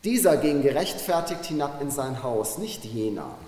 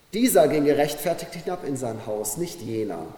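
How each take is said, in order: Both takes have the same delivery.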